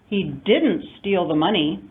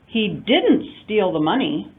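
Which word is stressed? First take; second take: didn't; didn't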